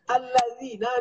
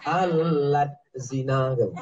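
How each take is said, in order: First: It is one word with no t sound. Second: A t sound splits it into two words. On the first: The speaker calls it right. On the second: The speaker calls it wrong.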